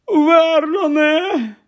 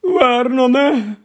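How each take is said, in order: First: Very high, very slow drawn-out call; panicked cry. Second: High, slow frightened call; gasping in alarm. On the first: Aunt crying to her husband in panic, very high and slow. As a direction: cry his name, stretched out in panic. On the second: Aunt gasping her husband's name after reading the letter, frightened. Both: Acted. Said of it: "вона хапнула ротом повітря".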